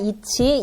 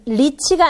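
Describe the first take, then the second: First: The word begins directly with a vowel. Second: The word begins with an L sound. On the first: The speaker calls it right. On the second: The speaker calls it wrong.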